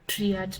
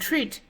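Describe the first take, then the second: First: The two vowel letters are said as two syllables. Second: The two vowel letters are said as one sound. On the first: The speaker calls it wrong. "you don't read this as triat" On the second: The speaker calls it right. "you read it as one word"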